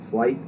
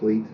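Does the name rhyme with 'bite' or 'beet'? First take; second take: bite; beet. First: The vowel sounds like the one in 'bite'. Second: The vowel sounds like the one in 'beet'. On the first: "Some of the branch pronounce it Flight" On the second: "and some pronounce it Fleet"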